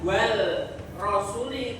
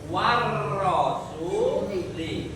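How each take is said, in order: First: The L is clearly pronounced before the R. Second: The L merges into a doubled R sound. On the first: The speaker calls it wrong. "Bukan wal rosuli" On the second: The speaker calls it right. "tapi warrosuli"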